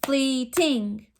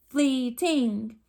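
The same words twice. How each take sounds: First: "Fleeting" said in two clapped beats, FLEET-ing; clapped syllables. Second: "fleeting" split into two even beats; clapped syllables. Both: Shown as a demonstration. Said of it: "Clap it with me".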